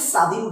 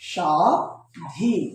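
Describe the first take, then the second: First: The word begins with a plain s sound. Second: The word begins with an sh sound. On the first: The speaker calls it wrong. "আমরা কখনোই স্বাধীন বলি না" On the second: The speaker calls it right. "তখন আমরা কি দিব, আলবস্য। তাই এটার উচ্চারণ কি হবে"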